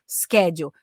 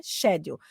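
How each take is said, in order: First: "schedule" opening on SK; American pronunciation. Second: "schedule" opening on SH; British pronunciation. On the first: Teacher recalling the English she learned, American SK in "schedule". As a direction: say "schedule" with a hard SK. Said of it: "porque eu aprendi inglês americano". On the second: Teacher giving the form she hears on trains, British SH in "schedule". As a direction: say "schedule" with a soft SH, no K. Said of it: "acaba ouvindo muito, pra mim é". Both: Shown as a demonstration.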